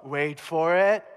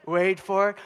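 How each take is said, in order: First: "Wait for it" stretched very slowly, building suspense; drawn-out suspense. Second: Said in the usual way. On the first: Acted. Pig herder telling buddies to watch, "Wait for it" very slow. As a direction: drag out "Wait for it" like a drumroll. Herder anticipating the demoniacs' charge.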